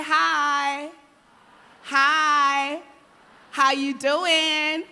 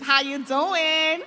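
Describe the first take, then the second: First: Big, loud, slow hello to the crowd; loud friendly greeting. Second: Slow, loud American how you doing; mock American accent. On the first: Shown as a demonstration. Speaker leads the audience in greeting the person beside them, loud and slow. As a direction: greet your neighbour loudly and slowly. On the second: Speaker teases the audience's American accents in a loud, slow American voice. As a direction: drawl it out like an American. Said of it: "now everyone has American accents".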